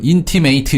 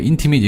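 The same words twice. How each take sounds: First: The final syllable sounds like 'ate'. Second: The final syllable sounds like 'it'. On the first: The word is used as a verb. The speaker calls it wrong. "이렇게 발음 안 했고요" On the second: The word is used as an adjective. The speaker calls it right. "이렇게 발음했거든요"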